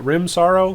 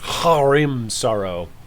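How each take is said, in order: First: The name starts without any H sound. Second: The name starts with a strong, hard H. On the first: "is the H silent?" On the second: "Or is it like a really hard H?"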